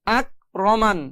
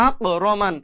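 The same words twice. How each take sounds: First: আক রমান with a plain K, no bounce; normal light K. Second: আক রমান with a bounced, thick Q ending আক; mistaken heavy qof. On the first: Teacher models the correct reading, light unbounced K in আক. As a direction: close আক on a light K without a push. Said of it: "normal ভাবে পড়তে হবে". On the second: Teacher shows what not to do, bounced Q in আক. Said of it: "এরকম ধাক্কা দেওয়া যাবে না". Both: Shown as a demonstration.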